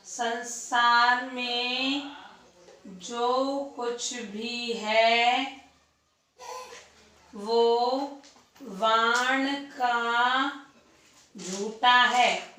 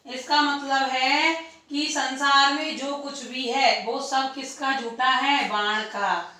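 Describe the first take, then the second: First: Very slow, word by word with long pauses; slow dictation. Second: Said in the usual way. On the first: Shown as a demonstration. Teacher dictating the line for students' notes, very slow. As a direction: dictate each word so students can write it down. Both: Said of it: "झूठन लिख दो".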